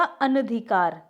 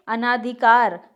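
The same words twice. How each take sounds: First: अनधिकार with short "na"; correct form. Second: अनाधिकार slowly, with long "naa"; incorrect form. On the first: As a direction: say अनधिकार as "ana-dhikaar". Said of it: "तो क्या होगा". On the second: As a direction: say अनाधिकार as "anaa-dhikaar". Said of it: "अना नहीं होता". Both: Shown as a demonstration.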